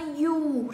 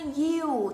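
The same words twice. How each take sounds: First: "you" said the American way; American pronunciation. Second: "you" said the British way; British pronunciation. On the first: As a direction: give "you" its American vowel. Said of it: "thì đây là tiếng Mỹ". (phát âm "you" kiểu Mỹ) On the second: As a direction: give "you" its British vowel. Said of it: "thì đây là tiếng Anh". (phát âm "you" kiểu Anh) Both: Shown as a demonstration.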